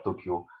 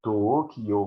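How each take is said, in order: First: Said in the usual way. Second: To-o-ki-yo, four even beats; Tokyo in four morae. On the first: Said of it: "on dirait, il y a deux syllabes". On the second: Shown as a demonstration. Lecturer contrasting syllables and morae, To-o-ki-yo in four beats. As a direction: tap out To-o-ki-yo as four sub-syllables. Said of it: "ça fait quatre sous-syllabes".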